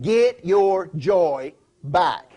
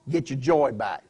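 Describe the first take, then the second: First: GET, YOUR, JOY, BACK each drawn out slowly and punched; emphatic. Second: Said in the usual way. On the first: Acted. Preacher repeats Paul's charge in case they missed it, emphatic. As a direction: hammer "get your joy back" word by word, loud and very slow. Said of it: "He was trying to be emphatic". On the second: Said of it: "in case you missed it".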